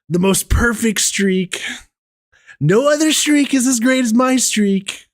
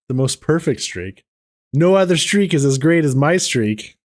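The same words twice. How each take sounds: First: It is said in a put-on impression voice. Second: It is read in a plain, normal voice.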